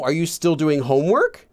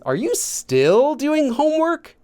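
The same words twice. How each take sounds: First: It is said evenly with no extra emphasis. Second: The word 'still' gets strong emphasis. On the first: It simply asks whether it continues. "you're not just saying" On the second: It stresses that it is still going on. "You want that emphasis"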